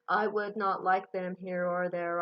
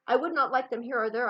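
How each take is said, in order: First: It is read in a flat, monotone, boring voice. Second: It is read very quickly, rushing through the words. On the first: "you don't want to read flat and boring. You don't want to be like this" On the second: "You also don't want to read too fast"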